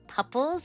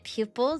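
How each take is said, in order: First: The word is said like 'pupples', as in puppy. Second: The word is said in the normal way, 'pupils'. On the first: "I pronounce it pupples" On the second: "instead of pronouncing it pupils"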